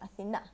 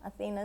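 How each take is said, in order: First: The name is said the Greek way. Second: The name is said the English way. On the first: "Athena is the Greek pronunciation" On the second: "Athena is the English pronunciation"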